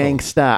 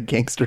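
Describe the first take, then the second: First: The word ends with an 'ah' sound. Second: The word ends with an 'er' sound. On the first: The speaker calls it right. "You have to pronounce it the way it's spelled" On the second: The speaker calls it wrong. "I didn't say that in the right tone"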